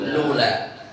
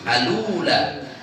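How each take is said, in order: First: The word begins directly with the l sound. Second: The word begins with a vowel before the l. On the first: The initial connecting hamza is dropped. "dengan membuang hamzah wasolnya" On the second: The initial connecting hamza is kept. "Al ula baca gimana?"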